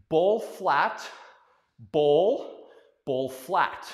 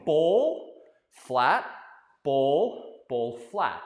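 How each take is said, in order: First: Ball flat, ball, ball flat called in rhythm; ball punched louder each beat; rhythmic step call. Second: Ball, flat, ball, ball, flat chanted loud on each step; chanted, ball and flat stressed, rising; call-and-repeat chant. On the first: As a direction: chant the footwork. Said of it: "the easy way to say it is". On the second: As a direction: lead the class in the chant. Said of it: "say with me". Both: Shown as a demonstration.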